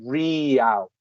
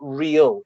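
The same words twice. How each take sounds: First: The word is drawn out and elongated. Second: The word is said short, as one syllable. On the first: The speaker calls it right. "like it's elongated" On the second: The speaker calls it wrong. "it's not real"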